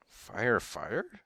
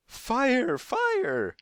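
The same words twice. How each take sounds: First: Puzzled echo. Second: Very high, loud shriek of alarm. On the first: Lady echoes the alarm as question. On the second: Woman with parrots raises the alarm, shrieking. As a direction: shriek it at the top of the voice. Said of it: "shrieked the woman with the parrots". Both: A narrator's reading.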